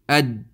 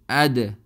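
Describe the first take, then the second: First: The final consonant stops abruptly without release. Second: The final consonant is released with a bounce. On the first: The letter is hard to tell apart. The speaker calls it wrong. "it's very difficult to uh, guess what letter was read" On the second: The letter is clearly identifiable. The speaker calls it right. "we do qalqalah on the sakin huruf, and they become something like this"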